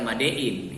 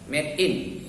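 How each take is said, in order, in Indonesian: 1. Made dibaca seperti nama Bali Made. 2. Made dibaca seperti cara penutur bahasa Inggris mengucapkannya.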